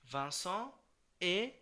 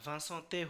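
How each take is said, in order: First: No t sound links Vincent to est. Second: A t sound links Vincent to est. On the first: The speaker calls it right. "হবে হচ্ছে Vincent এ" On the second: The speaker calls it wrong. "Vincent তে হয়ে যাবে না"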